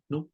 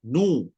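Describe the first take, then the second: First: The 'u' vowel is only a faint, clipped fraction. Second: The 'u' vowel is fully pronounced at normal length. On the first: "Kalau kata rom, baca dia nu" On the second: "kalau kata nu, penuh"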